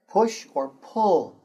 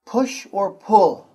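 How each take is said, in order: First: Slow, careful repeat; model phrase repeated. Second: Slow, loud, clear model; model phrase for repeating. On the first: Teacher repeating a model phrase for the students. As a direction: say it slowly once more for the class. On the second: Teacher modelling a phrase for the students to repeat. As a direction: say it slowly for the class to copy. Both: Shown as a demonstration. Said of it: "I say, you say".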